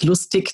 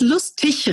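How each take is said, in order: First: It is said with a Bavarian pronunciation. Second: It is said with a standard German pronunciation. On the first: The speaker calls it wrong. "nicht lustig, das wäre bayerisch" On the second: The speaker calls it right. "Es heißt lustig"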